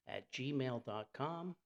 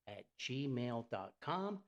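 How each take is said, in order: Both takes have the same delivery.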